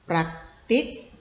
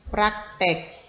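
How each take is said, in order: First: The last syllable is pronounced 'tik'. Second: The last syllable is pronounced 'tek'. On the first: The speaker calls it right. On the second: The speaker calls it wrong. "ini tidak baku ya"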